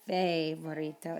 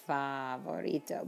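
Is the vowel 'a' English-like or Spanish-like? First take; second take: English-like; Spanish-like. First: The a sounds like an English vowel. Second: The a is a clear open Spanish vowel. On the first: The speaker calls it wrong. "It's not favorito" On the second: The speaker calls it right. "because the letter A is A"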